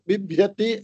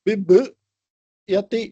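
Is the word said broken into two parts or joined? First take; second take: joined; broken. First: The word is said smoothly as one unit. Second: The word is split with a break inside. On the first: The speaker calls it right. "ஒரு வார்த்தைய பிப்யதி அப்படி சொல்லும்போது" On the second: The speaker calls it wrong. "இப்படி சொன்னா அது break ஆகும்"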